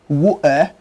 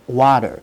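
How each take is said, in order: First: It is said in a nonstandard British accent. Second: It is said in a nonstandard American accent. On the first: "not standard British pronunciation" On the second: "is not standard American pronunciation"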